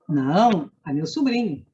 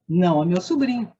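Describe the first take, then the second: First: There is a pause right after "não". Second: There is no pause after "não".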